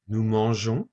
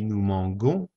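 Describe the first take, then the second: First: "nous mangeons" with a soft zh sound in the middle; correct soft G. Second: "mangons" with a hard G as in go; wrong hard G. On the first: Teacher giving the correct form of "nous mangeons". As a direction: say "mangeons" as man-zhon, soft G. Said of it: "to keep the natural sound of manger". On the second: Teacher showing the mistaken form "nous mangons". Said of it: "We have an O after the G, so it would be". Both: Shown as a demonstration.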